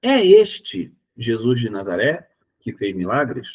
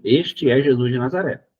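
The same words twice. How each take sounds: First: Slow question tune, lifted on "É este" and "milagres"; doubting question. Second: "Este é Jesus de Nazaré" said as a firm affirmation; categorical statement. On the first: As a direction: ask it in doubt, stressing "É este". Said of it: "Aqui eu tô mostrando uma dúvida". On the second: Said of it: "Eu sou taxativo". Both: Shown as a demonstration.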